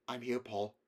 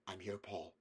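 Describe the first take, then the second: First: Said in the usual way. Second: Much softer, gentle reassurance; a mother soothing her frightened son. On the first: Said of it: "I'm here, Paul," she said". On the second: A narrator's reading. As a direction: hush him like a mother calming a child. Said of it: "she said".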